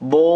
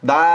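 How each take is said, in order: First: It is said heavy, with a full mouth. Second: It is said light, without a full mouth. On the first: The speaker calls it right. "আওয়াজটা যদি বড় করেন, তাহলে কি হবে? বো হয়ে যাবে" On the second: The speaker calls it wrong. "মুখটা ভরে যদি না যদি বলেন, তাহলে কি হবে? দা হয়ে যাবে"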